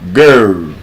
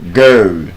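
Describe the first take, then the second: No difference in how they are said.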